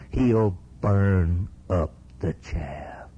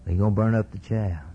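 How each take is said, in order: First: "burn up the chaff" drawn out word by word; slow emphatic warning. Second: Said in the usual way. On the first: Real, not acted. Preacher warns congregation of coming judgment, slow and emphatic. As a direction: spell out the judgment very slowly. Preacher drives home the verse.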